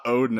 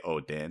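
First: Odin said like the Norse god, ODE-in; the first guess, Odin read as the Norse god; wrong Norse reading of Odin; Odin as first misread. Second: Odin said the way his friend says it, as a Japanese food name; echoing the corrected Odin. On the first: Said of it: "'cause I was reading it, I thought Odin". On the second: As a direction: repeat Odin with the friend's stress. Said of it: "you emphasize it like that". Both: Shown as a demonstration.

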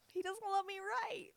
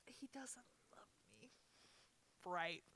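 First: High, loud cry of real hurt; tearful outcry. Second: Real crying, barely whispered; tearful whisper. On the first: Crying, repeats it out loud. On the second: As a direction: whisper it through tears. Crying over grandpa's love. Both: Real, not acted.

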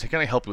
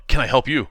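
First: "Can I help you?" said as a flat exclamation, falling; exclamation point. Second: "Can I help you?" louder, falling at the end like a statement; not a question. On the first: Host reads the comic line as printed, falling exclamation. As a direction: bark it as a statement, not a question. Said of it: "with an exclamation point". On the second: Cohost asks for it said as a statement, falling flat. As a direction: drop the pitch on "you", no rise. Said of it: "you still didn't say that, not like a question". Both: Shown as a demonstration.

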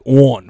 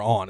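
First: Loud, drawn Baltimore "On"; Baltimore accent. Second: Said in the usual way. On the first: Shown as a demonstration. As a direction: exaggerate the Baltimore vowel in "On". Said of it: "it's, like, this bizarre accent they have". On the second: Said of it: "for on".

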